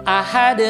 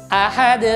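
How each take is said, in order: No difference in how they are said.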